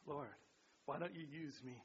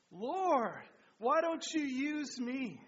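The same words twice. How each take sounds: First: Softer, lower leading line; soft prompt. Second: Louder and higher, slow; fervent group repeat. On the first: Shown as a demonstration. Pastor quietly gives the line to repeat. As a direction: give them the line quietly. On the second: Real, not acted. Congregation fervently repeats the prayer line loud and slow. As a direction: say it back with passion, slowly. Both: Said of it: "The last one".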